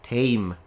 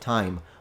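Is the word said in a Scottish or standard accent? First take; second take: Scottish; standard. First: The vowel is an older, Scottish-style sound. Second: The vowel is the standard modern sound. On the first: This keeps an older pronunciation. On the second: This is the modern pronunciation.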